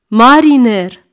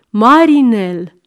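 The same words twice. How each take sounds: First: "Mariner" said louder, as the correct word, ending in r; know-it-all "mariner". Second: "Marinel" said slowly, spelled out with an l, like grandma; old-fashioned "marinel". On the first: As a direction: declare "Mariner" with a falling tone, like a lesson. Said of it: "Nu se zice nici marinal, nici marinel". („Mariner” spus apăsat, pe ton de atotștiutor) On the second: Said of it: "nu ți-am zis că nu se zice marinel?". („Marinel” rostit rar, bătrânește) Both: Acted.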